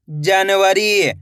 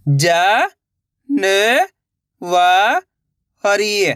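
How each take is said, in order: First: जनवरी joined into one slow word; blended word. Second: ज, न, व, री held, with gaps; syllable by syllable. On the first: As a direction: say जनवरी whole, drawn out. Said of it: "तो मिलके बन जाएगा". (जनवरी मिलाकर, धीरे से) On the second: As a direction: sound out ज, न, व, री one by one. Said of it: "एक एक अक्षर का उच्चारण करके". (ज, न, व, री अलग-अलग) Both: Shown as a demonstration.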